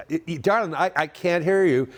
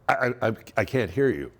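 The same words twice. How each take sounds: First: Higher, stammering plea to a spouse; retold stammering protest, pitched up; exasperated can't-hear. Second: Said in the usual way. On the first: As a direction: strain to say it over the noise. Retold repeat, straining over din.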